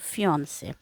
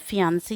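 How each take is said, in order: First: The word ends with an 'ay' sound. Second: The word ends with an 'ee' sound. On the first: The speaker calls it right. "इसको हम फियोन्से जो है pronounce करते हैं" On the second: The speaker calls it wrong. "फियांसी नहीं"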